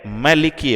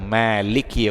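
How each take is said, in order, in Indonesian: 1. Vokal pertama dibaca pendek. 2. Vokal pertama dibaca panjang. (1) "tanpa dibaca panjang" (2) "ada yang Maliki Yaumiddin"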